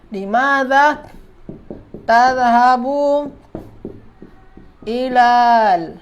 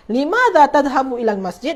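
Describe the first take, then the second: First: Drawn-out words with long gaps; word-by-word dictation. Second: Said in the usual way. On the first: Shown as a demonstration. Teacher writing out a student's sentence, slow word-by-word dictation. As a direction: dictate it piece by piece, stretching each word.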